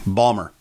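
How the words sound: The word is squeezed into two syllables. "pronounce that word. And they're like"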